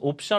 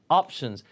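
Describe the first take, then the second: First: It is said as the Korean loanword 'opsyeon'. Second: It is said with English pronunciation. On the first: The speaker calls it wrong. "옵션 아니고" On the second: The speaker calls it right. "발음이 options"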